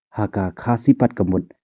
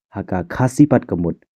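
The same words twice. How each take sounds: The two takes are said the same way.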